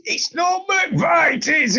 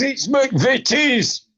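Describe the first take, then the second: First: "McVitie's" with a long "vai" in the middle, said high, slow and shouted; mock the wrong "McVitie's", high and drawn out. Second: "McVitie's" with a short "vi", slow and firm; right McVitie's. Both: Shown as a demonstration. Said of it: "angry that you say McVitie's".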